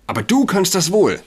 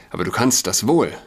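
First: High, loud and shrill; shrill outburst, pitch way up. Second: Said in the usual way. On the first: Acted. (schrill, hoch und laut) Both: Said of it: "sagte sie schrill".

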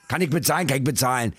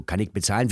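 First: Mock gruff Berliner. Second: Said in the usual way. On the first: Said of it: "Der Berliner ist ja sehr schroff". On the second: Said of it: "und der ist ja dann so".

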